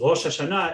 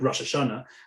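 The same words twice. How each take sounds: First: It uses the modern Hebrew pronunciation. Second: It uses the Ashkenazic Hebrew pronunciation. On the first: "But what it means is"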